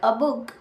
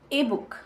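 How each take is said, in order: First: The word 'a' is a short reduced vowel. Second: The word 'a' is a full vowel, like 'ay'. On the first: It could be any book. "Weak form में use कर रहे हैं तो हम उसको बोलेंगे अ" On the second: The article is emphasized or contrasted. "Strong form में use करेंगे तो हम बोलेंगे"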